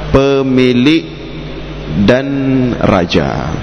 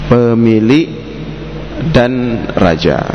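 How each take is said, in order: The two takes are said the same way.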